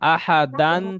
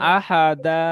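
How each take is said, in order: First: The word ends with an n sound. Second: The word ends in a lengthened a vowel. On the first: "দু যাবার আলিফ" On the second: "এক যাবার বাদ দিয়ে এক যাবার একালিফ পরিমাণ টান দিয়ে পড়তে হবে"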